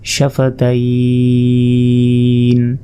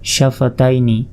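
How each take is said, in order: First: The word ends without the final vowel. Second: The word ends with a final vowel.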